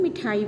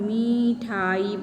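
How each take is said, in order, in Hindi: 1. पहला स्वर ह्रस्व है। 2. पहला स्वर दीर्घ है। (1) "वो छोटी की मात्रा है" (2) "बड़ी की मात्रा सुनाई दे रही है"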